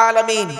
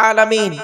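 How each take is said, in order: Both takes have the same delivery.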